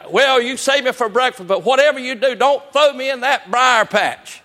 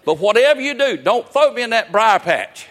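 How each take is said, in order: First: Higher, louder, slow frantic begging; desperate rabbit pleading. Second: Frantic begging rabbit. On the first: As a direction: plead even harder this time. Rabbit pleads again, bigger. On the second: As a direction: beg like your life depends on it. Rabbit's mock plea. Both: Retold or imitated.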